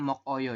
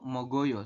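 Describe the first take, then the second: First: The consonant closes the first syllable with a break. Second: The consonant flows smoothly into the next syllable. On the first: The speaker calls it wrong. "bukan mok oyo ya" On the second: The speaker calls it right. "dibacanya itu mogoyo seperti ini"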